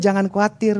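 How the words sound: It sounds like a soft, friendly invitation. It is a suggestion to join in. The speaker calls it wrong. "Ayo jangan khawatir, bukan gitu"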